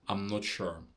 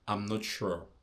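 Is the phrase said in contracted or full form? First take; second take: contracted; contracted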